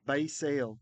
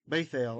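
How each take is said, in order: First: The middle consonant is an s sound. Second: The middle consonant is a th sound. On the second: This is the ancient Hebrew reading. "I am reading that Tav as a T H"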